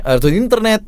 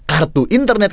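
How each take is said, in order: First: "Kartu internet" with the k half swallowed, run together; slurred mimic. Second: "Kartu internet" with a crisp k and every syllable clean; clear articulation. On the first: Coach mimicking how the talent slurred the line, tripping over the k. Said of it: "karena kedengerannya". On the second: Shown as a demonstration. Coach showing the clean way to say the brand line, crisp. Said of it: "karena ini kan ju".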